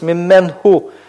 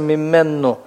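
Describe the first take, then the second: First: An h sound follows the n. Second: A doubled n replaces the h. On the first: The speaker calls it wrong. "неудобно произносить" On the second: The speaker calls it right. "поэтому произносится мимменну"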